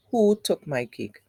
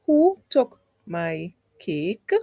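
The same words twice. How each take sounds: First: Full-stop reading, "cake" kept down; no rise on "cake". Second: Slow question, "cake" lifting at the end; questioning rise on "cake"; raised voice on "cake". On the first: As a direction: let "cake" fall, not a question. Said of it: "raise at the end". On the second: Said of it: "Did I raise my voice when I said cake?". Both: Shown as a demonstration.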